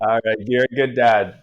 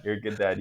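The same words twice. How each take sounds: First: Louder, falling on good; louder praise. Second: Softer aside, lower pitch; quieter repeat. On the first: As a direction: say it out, stress good. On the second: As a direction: mutter the repeat under breath. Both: Shown as a demonstration.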